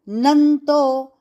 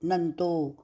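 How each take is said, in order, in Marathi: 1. 'to' च्या आधीचा अनुनासिक ठाम जोराने म्हटला जातो. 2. 'to' च्या आधीचा अनुनासिक जोर न देता म्हटला जातो. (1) "देखो आघात का उच्चारण" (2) "अगर आघात नहीं लिया तो"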